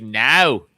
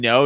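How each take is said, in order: First: NO pushed loud from the back of the throat; exaggerated Aussie NO, throaty and loud; Australian-style NO. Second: Said in the usual way. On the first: Shown as a demonstration. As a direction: say NO with the vowel far back, loudly. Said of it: "Like, back here". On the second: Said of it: "So if you're saying no".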